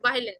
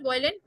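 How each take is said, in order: First: "वायलिन" with an ai vowel; correct pronunciation. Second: "वायलिन" said with an oi vowel; wrong pronunciation. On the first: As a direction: start "वायलिन" as vai, falling at the end. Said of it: "not वायलिन". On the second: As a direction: start "वायलिन" like boil. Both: Shown as a demonstration.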